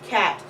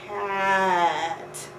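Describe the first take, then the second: First: It is said at normal speed. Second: It is said very slowly, stretched out.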